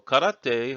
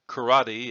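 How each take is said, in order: First: It is said with Japanese pronunciation. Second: It is said with Western English pronunciation.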